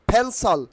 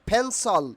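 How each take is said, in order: The two takes are said the same way.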